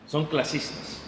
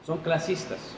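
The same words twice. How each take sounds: The two takes are said the same way.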